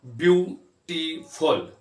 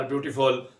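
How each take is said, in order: First: ब्यूटीफुल slowly in three separate beats; drawn-out, broken-up ब्यूटीफुल; syllable by syllable. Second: Said in the usual way. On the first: Shown as a demonstration. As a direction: pause after each syllable of ब्यूटीफुल. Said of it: "तीन syllable हैं". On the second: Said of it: "बगैर रुके पढ़ा".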